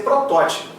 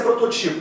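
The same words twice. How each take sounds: First: "protótipo" with the stress on TÓ; open, stressed Ó in "protótipo"; correct protótipo. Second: "prototipo" with the stress on TI; wrongly stressed next-to-last syllable in "prototipo"; mispronounced prototipo. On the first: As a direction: say "protótipo" as pro-TÓ-ti-po. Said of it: "tem que ser protótipo". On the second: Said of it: "não pode ser prototipo". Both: Shown as a demonstration.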